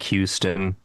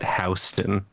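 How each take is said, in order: First: It sounds like the Texas city's name. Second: It uses the local New York pronunciation. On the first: The speaker is from out of town. The speaker calls it wrong. "spelled like Houston" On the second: The speaker is a native New Yorker. The speaker calls it right. "we call it Houston"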